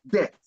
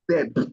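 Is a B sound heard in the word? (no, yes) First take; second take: no; yes. First: The B sound is silent. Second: The B sound is pronounced. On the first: The speaker calls it right. "the B is usually silent" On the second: The speaker calls it wrong. "not debt"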